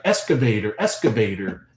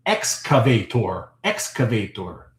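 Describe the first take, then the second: First: "excavator" said casually as "ess-ka-vay-ter"; own Canadian pronunciation. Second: "excavator" slowly as "ex-ca-vay-tor"; careful pronunciation. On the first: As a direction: soften the x in "excavator" to a plain s, ending "-ter". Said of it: "the pronunciation of the word excavator". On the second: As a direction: sound the full x and a clear "-tor" in "excavator". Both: Shown as a demonstration.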